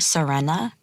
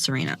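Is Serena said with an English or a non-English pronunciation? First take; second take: non-English; English. First: It is said with a non-English pronunciation. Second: It is said with an English pronunciation. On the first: This is the intended form of the stage name. "It's actually Serena" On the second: This is the habitual English form of the name. "I'm so used to the English pronunciation of Serena"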